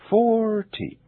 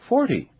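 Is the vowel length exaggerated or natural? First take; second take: exaggerated; natural. First: The stressed vowel is stretched out very long. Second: The stressed vowel has a normal length. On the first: "I will exaggerate them first" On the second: "Now I'll say them naturally"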